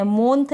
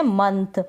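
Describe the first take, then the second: First: मोंथ with a full open O sound, mont; wrong "month". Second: मंथ with a short a sound, munth; correct month. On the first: Teacher shows Hindi learners the wrong way: मोंथ with a clear O. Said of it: "मोंथ नहीं पढ़ रहे हैं". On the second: Teacher shows Hindi learners the right way: मंथ with a short a. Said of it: "हम पढ़ रहे हैं मंथ". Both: Shown as a demonstration.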